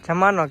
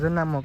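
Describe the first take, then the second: First: The m sound comes before the n sound. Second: The n sound comes before the m sound. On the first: The speaker calls it right. "જમાનો કહેવાય" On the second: The speaker calls it wrong. "જનામો જનામો કરે છે"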